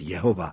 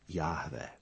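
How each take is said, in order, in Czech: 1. Jméno se vyslovuje se samohláskami e-o-a. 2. Jméno se vyslovuje se samohláskami a-e. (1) "nesprávná výslovnost" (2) "správná výslovnost"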